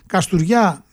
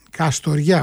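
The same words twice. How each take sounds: First: "Καστουριά" in local dialect, o turned to ou; local Kastoria accent. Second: Said in the usual way. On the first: Real, not acted. Radio host reading fixtures slips into local speech, local Kastoria accent. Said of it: "το είπα πολύ με προφορά, έτσι, ντόπιο λαλιάς". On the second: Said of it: "όχι Καστουριά".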